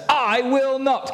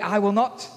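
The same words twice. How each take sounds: First: High, slow, drawn-out I will not; a child digging in his heels; defiant refusal. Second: Stubborn son made to say it out loud; louder refusal. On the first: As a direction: stretch it out like a stubborn kid. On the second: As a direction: say I will not again, a bit louder. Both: Acted. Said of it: "Can you say it really loudly?".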